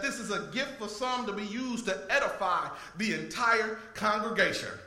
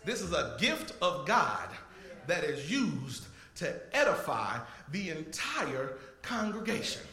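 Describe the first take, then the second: First: It is said at normal speed. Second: It is said slowly.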